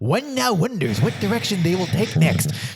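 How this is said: It is read in a nerdy put-on voice.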